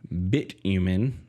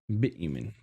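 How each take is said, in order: First: The word is said slowly and carefully. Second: The word is said quickly and repeatedly. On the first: The speaker calls it right. "I gotta be careful how I say that" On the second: The speaker calls it wrong. "you do not say that word fast"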